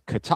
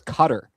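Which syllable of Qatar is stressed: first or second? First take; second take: second; first. First: The stress is on the second syllable. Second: The stress is on the first syllable. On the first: "Whereas Qatar" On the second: "The emphasis here is on the first syllable"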